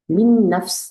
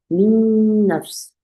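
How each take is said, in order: First: The nasal sound is short and passed quickly. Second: The nasal sound is held for a long time. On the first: The speaker calls it wrong. "하고 지나가시지 말고" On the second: The speaker calls it right. "충분히 시간을 주세요"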